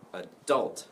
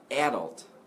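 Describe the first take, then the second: First: The stress is on the second syllable. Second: The stress is on the first syllable. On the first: The speaker calls it right. "where the stress is on the second syllable" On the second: The speaker calls it wrong. "Some people say adult. Okay, so if you stress the a, the first syllable"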